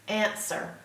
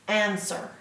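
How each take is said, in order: No difference in how they are said.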